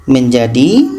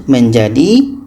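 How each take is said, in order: The two takes are said the same way.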